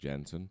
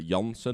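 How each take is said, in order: First: The name is said with English pronunciation. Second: The name is said with Dutch pronunciation. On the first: "but the English version would be like" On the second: "In in Dutch we would say uh"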